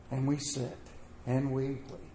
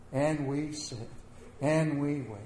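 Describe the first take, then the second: No difference in how they are said.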